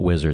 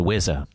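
First: The word ends with a clear final r sound. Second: The final r is dropped, ending in an open vowel. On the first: "To call it Wizard is funny" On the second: "That only works with the Boston accent"

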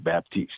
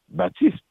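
First: The name is pronounced the English way. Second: The name is pronounced the French way. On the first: The character is speaking English. "if he's communicating in English, he'd say" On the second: The character is speaking French. "if he's communicating in French, he will say"

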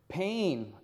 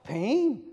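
First: It is said in the speaker's own voice. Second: It is said in a Yoda impression voice.

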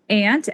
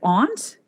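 First: The vowel is a flat 'a' as in 'ant'. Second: The vowel is a broad 'ah' as in 'father'.

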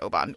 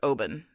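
First: It is said the American way. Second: It is said the Scottish way.

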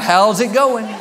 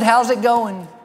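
First: The question is said at a loud volume. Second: The question is said at a soft volume. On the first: "I smiled bigger and said it louder" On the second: "I smiled at him, said"

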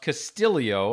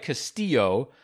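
First: A 'y' sound comes between the L and O. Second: No 'y' sound comes between the L and O. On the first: The speaker calls it right. "almost like there's an I between the L and the O" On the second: The speaker calls it wrong. "It looks like Castillo"

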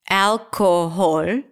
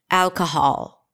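First: The middle syllable is fully pronounced. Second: The middle syllable is dropped. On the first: "If I try to pronounce it again phonetically" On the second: "When I drop the sound"

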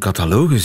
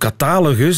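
First: The stress is on the third syllable. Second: The stress is on the second syllable.

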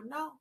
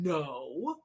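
First: It sounds short and neutral, without judgment. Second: It sounds harsh and judgmental.

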